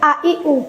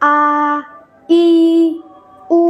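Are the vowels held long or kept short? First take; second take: short; long. First: Each vowel is short and not stretched. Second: Each vowel is stretched out for longer. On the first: "তো আমরা এগুলোকে টানতাম না" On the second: "একালের মধ্যে কিন্তু একালিক পরিমাণ টানতে হবে।"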